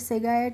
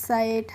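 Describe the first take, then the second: First: The word has a short i and a hard g. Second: The word has a long 'ai' and no g. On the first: The speaker calls it wrong. "इस तरीके से नहीं करेंगे" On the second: The speaker calls it right. "इस तरीके से करेंगे"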